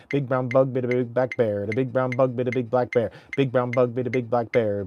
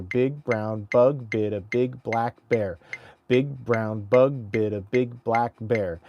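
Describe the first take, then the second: First: Every b snapped out crisply in "Big brown bug"; crisp tongue twister. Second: Slow tongue twister. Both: Shown as a demonstration. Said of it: "tongue twister clarity drill".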